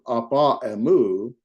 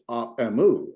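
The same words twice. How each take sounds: First: APA EMU with both meeting vowels sounded; unelided reading. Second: AP EMU linked, first word's final vowel gone; smooth elided reading. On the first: Teacher contrasting the long form for a student, unelided. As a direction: keep the last a of "apa" before "emu". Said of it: "So instead of". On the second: Teacher showing what the apostrophe does, vowel elided. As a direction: slide from "ap" straight into "emu". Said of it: "read it a little smoother". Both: Shown as a demonstration.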